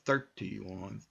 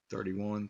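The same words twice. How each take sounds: First: The middle consonant is a clear T. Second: The middle consonant sounds like a D. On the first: "instead of going" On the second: "we go"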